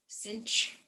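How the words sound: It sounds like cinch, American style.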